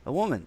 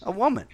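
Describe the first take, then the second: First: Said in the usual way. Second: A woman, pitched up high in disbelief; scoffing echo of a friend's guess; exasperated. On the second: Real, not acted. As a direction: throw it back, incredulous and high.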